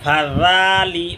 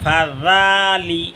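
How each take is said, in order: No difference in how they are said.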